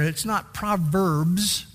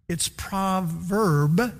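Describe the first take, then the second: First: Proverbs said slowly with the plural s. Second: Proverb drawn out very slowly, singular, rising at the end; stress on proverb. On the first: Pastor to the congregation, proverbs said slowly with its plural s. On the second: Pastor correcting the plural, proverb stretched slowly and rising. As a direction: lean hard on the singular proverb. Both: Shown as a demonstration.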